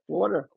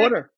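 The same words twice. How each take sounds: First: A lighter New York "Water."; New York accent. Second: New York "Water." with a long open aw and dropped r; New York accent. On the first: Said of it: "Your New York accent doesn't come out often". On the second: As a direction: say "Water." like a born New Yorker, vowel stretched. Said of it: "Say it again". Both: Shown as a demonstration.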